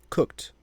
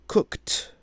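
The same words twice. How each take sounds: First: The final T sound is light and natural. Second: The final T sound is exaggerated and emphasized. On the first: "the third time pronouncing it as I would normally pronounce it" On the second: "the other two times will be kind of emphasizing that ed"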